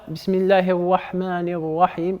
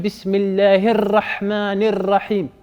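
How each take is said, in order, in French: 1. Le r n'a aucun roulement du tout. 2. Le r est fortement roulé, avec plusieurs battements. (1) "il n'y a aucun takrir, il n'y a aucune euh, vibration" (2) "c'est pas de l'espagnol ou de l'italien"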